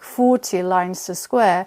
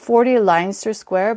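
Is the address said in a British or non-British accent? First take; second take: British; non-British. First: It is said in a British accent. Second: It is said in a non-British accent.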